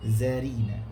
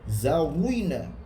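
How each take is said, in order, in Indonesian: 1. Bunyi r-nya ringan, bibir melebar. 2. Bunyi r-nya berat dan bulat. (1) "Ri senyum" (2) "Dia tak boleh baca Zawina, Rui tak boleh"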